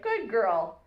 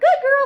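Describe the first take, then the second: First: The voice is even, low and calm. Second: The voice is high-pitched and squeaky. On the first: The dog is praised without being excited. The speaker calls it right. "keeping your voice even and calm" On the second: The praise overexcites the dog. The speaker calls it wrong. "high squeaky voice"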